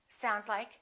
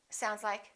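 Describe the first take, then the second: Both takes have the same delivery.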